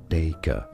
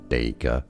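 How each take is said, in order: First: It is said in a British accent. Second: The same.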